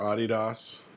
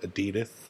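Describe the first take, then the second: First: The name is said in its original pronunciation. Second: The name is said with an Americanized pronunciation. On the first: "as it should be said" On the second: "we Americanize it and call it Adidas"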